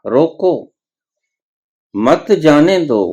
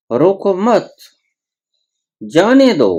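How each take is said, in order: First: रोको set apart with rising pitch, then मत जाने दो as one phrase; pause after रोको. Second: रोको मत high as one phrase, long break, then जाने दो; pause after मत. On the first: Preacher shows listeners how meaning changes, pausing after रोको. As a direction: stop on रोको, then run मत जाने दो together. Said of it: "अगर रोको के ऊपर ठहर गए". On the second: Preacher shows listeners the reversed meaning, pausing after मत. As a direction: stop on मत, then release जाने दो higher and separately. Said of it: "अगर मत के ऊपर ठहर गए". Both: Shown as a demonstration.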